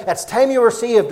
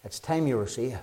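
First: Raised preaching voice; urgent preaching. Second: Much softer, dropped low; hushed earnest appeal; soft urgent plea. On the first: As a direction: drive home the urgency. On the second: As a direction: lean in and plead quietly. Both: Shown as a demonstration. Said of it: "could I emphasize the urgency tonight".

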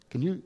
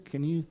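The two takes are said the same way.

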